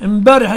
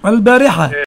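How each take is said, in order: First: The word starts with an 'im' sound. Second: The word starts with an 'al' sound. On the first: The speaker calls it wrong. "المصريون يقولون امبارح، اللام قلبتموها ميم" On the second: The speaker calls it right.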